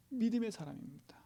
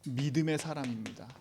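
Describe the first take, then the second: First: 믿음의 사람입니다 whispered, higher; 믿음의 사람입니다 softly whispered to the congregation. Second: Said in the usual way. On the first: Shown as a demonstration. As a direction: repeat it as a hushed secret. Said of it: "repeated in a whisper". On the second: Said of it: "repeats the line whispered".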